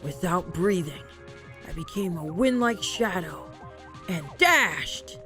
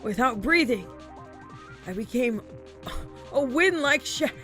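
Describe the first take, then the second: First: It is read in a more serious tone. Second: It is read in a playful, joking tone.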